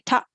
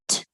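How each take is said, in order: First: The t sound is followed by a vowel. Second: The t sound is said with no vowel. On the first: The speaker calls it wrong. "Don't say ta, ta" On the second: The speaker calls it right. "Don't open your mouth. Your mouth will be closed. ... like this"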